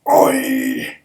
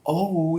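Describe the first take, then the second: First: It is a rough call vibrating in the throat. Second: It is a plain, smooth call without throat vibration. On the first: The speaker calls it right. "You gotta you gotta make it vibrate in your throat" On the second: The speaker calls it wrong. "You can't go"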